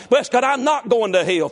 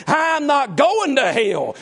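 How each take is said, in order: First: Said in the usual way. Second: Chanting the choir song. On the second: Retold or imitated. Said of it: "that song the youth choir sang".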